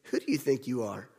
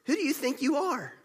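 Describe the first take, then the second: First: Low, soft, hushed repeat of the question; lower, quieter echo, pondering it; quiet reflection. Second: High, sharp, affronted question; higher, offended retort quoting the crowd; indignant challenge. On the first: Shown as a demonstration. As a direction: let the question sink in softly. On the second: Retold or imitated. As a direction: throw the question back like an insult.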